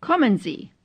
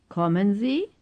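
First: Falling tune, voice dropping on "Sie"; "Kommen Sie" as a firm falling statement; statement intonation. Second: Rising tune, voice lifting on "Sie"; softer question rising steadily to "Sie"; question intonation. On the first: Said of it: "first as statements". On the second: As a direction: ask it, climbing at the end on "Sie". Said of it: "then as questions". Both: Shown as a demonstration.

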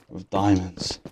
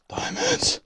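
First: Said in the usual way. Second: A sudden high-pitched diamond craving; high squeal of delight. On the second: Real, not acted. Gamer alone in a cave longing for diamonds, high squeal.

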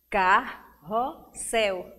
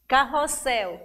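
First: "carrossel" slowly broken into car-ros-sel; three separate beats on "carrossel"; syllable by syllable. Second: Said in the usual way. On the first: Shown as a demonstration. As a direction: count out "carrossel" with gaps between syllables. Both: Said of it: "quer saber o número de sílabas".

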